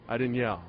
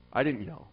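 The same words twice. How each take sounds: The two takes are said the same way.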